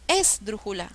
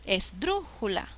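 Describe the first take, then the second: First: The stress is on the first syllable. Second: The stress is on the second syllable. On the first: The speaker calls it wrong. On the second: The speaker calls it right. "Suena mejor"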